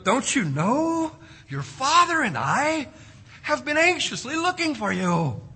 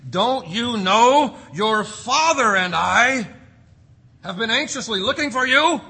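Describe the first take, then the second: First: Tender motherly reproach. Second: Stern retold scolding. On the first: Acted. Preacher re-voicing Mary as a mother would, gently and tenderly. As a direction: plead gently, drawing it out like a worried mother. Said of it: "much more gently and tenderly, like a mother would". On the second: Preacher voicing Mary scolding her son, stern and loud. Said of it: "she probably didn't say it like that".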